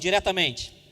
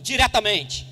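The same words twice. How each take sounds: First: It is said plainly, without special conviction. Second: It is said with a believer's conviction.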